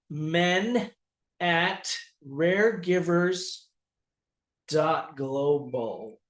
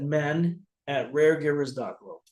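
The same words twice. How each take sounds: First: It is said slowly and clearly. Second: It is said at a normal, quick pace.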